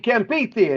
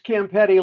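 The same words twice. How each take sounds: First: The name is said the Italian way. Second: The name is said the American way.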